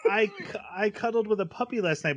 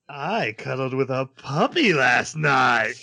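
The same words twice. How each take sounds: First: The line is said in a light, ordinary tone. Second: The line is said in a dark, menacing tone. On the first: The line is innocent small talk. "She'd be like" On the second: The speaker sounds like an evil villain. "but she'd be like"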